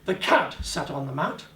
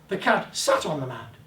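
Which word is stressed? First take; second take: cat; sat. First: The word cat carries the emphasis. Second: The word sat carries the emphasis. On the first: It was the cat, not another animal. "not the dog, not the guinea rib, the guinea pig" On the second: It sat rather than stood. "Didn't stand beside it, he sat on it"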